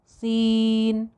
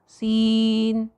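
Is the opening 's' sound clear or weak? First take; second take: weak; weak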